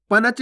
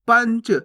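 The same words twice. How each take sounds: First: पनच split as pa-nach; गलत उच्चारण. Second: पंच as one syllable, nasal into ch; no vowel between n and ch in पंच; नाक से उच्चारण. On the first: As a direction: give पनच a full vowel after the n. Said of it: "पनच नहीं". (पनच, पूरा न बोलकर) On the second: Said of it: "देखो इसका उच्चारण नाक से निकलेगा". (पंच, आधा न नाक से) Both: Shown as a demonstration.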